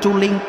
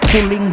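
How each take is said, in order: First: It is pronounced as spelled, in Indonesian. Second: It is pronounced as the English word culling. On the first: The speaker calls it wrong. "bukan culing" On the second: The speaker calls it right. "ini mah dibacanya culing"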